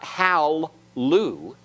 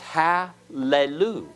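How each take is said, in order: First: The two l sounds join with no vowel between. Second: A short vowel sounds between the two l sounds. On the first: The speaker calls it wrong. "So it's not hal-lu" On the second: The speaker calls it right. "This schwa will be vocal"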